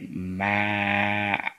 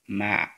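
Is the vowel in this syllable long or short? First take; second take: long; short. First: The vowel is drawn out long. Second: The vowel is short and quick. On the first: The word has a lengthening letter. The speaker calls it right. "on doit tirer le mim" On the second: The word has no lengthening letter. The speaker calls it wrong. "on allait faire la prononciation rapide"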